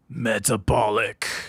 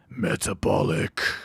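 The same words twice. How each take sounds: First: It is said in a normal voice. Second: It is said in a gruff, badass voice.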